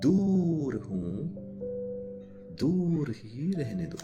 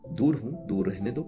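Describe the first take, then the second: First: It is read emotionally, with 'दूर' drawn out. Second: It is read plainly, without stretched words.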